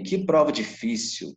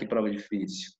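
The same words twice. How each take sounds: First: It is said as a lively, emphatic exclamation. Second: It is said as a weary, sighing complaint. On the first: The test is remarkably hard. "A gente está exclamando que a prova é difícil" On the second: The speaker is lamenting the hard test. "Um sentido diferente na frase"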